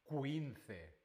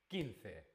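First: A 'w' sound follows the k sound. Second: No 'w' sound follows the k sound. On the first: The speaker calls it wrong. "No decimos 15, no" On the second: The speaker calls it right. "La letra U no se pronuncia"

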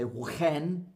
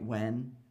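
First: An H sound is breathed before the W. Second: No H sound is heard before the W. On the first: The speaker calls it wrong. "We don't say when" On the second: The speaker calls it right. "No, it's what, why, when"

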